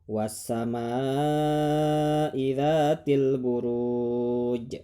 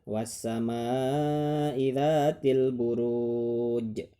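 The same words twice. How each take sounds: No difference in how they are said.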